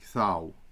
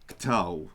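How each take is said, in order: First: The t is a soft breathy sound. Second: The t is a hard stop sound. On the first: The speaker calls it right. "We're going to soften those" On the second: The speaker calls it wrong. "Because imagine if we didn't do that, we would be pronouncing"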